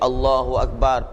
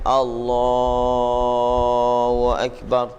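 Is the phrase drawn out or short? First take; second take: short; drawn out. First: The phrase is said short and quick. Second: The phrase is drawn out slowly. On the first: The movement is left partly empty of remembrance. The speaker calls it wrong. "pendek begitu" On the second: The words fill the whole movement to the next position. The speaker calls it right. "Diikut panjang qadar kita naik"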